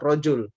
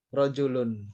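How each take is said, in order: First: The word ends without the -un syllable. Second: The word ends with an -un syllable. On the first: This is how it is normally read. "kita bacanya sebetulnya apa? Rojul" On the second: This is the full form used for learning grammar. "kita baca lengkap"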